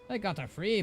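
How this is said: It is spoken in a put-on dwarf voice. The speaker calls it wrong. "Why am I giving him a dwarf voice?"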